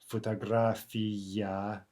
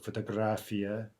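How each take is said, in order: First: The unstressed vowels are pronounced fully. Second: The unstressed vowels are reduced.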